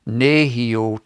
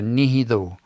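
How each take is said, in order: First: The middle consonant is a y sound. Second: The middle consonant is a th sound. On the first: "It changes from nehio" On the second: "in T H, ... to nihido"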